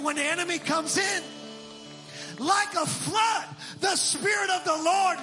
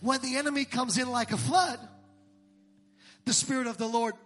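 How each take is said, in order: First: The pause falls after the words comes in. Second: The pause falls after the word flood. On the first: The Spirit is the one coming like a flood. The speaker calls it right. "I don't put the flood with the enemy" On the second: The enemy is the one coming like a flood. The speaker calls it wrong. "most people hear it and quote it like this"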